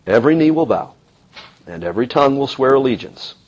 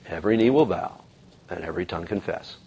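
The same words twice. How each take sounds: First: Said in the usual way. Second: Every tongue confess, fading much softer; a hushed restatement of the promise; soft, reflective echo. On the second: Acted. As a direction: let the words sink in quietly. Echoing the prophecy, reflective.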